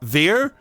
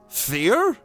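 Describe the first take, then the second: First: The word does not begin with an F sound. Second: The word begins with an F sound. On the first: "how the fuck do I even say that?" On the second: "It's pronounced like an F?"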